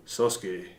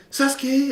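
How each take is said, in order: First: Lower, softer mock-manly voice; put-on low manly anime voice; manly Naruto. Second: Put-on high-pitched anime boy calling out; squeaky-high imitation of a boy hero; young Naruto. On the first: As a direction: drop it down like a grown man. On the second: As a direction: mimic the old, higher cartoon voice. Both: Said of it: "Naruto became manly".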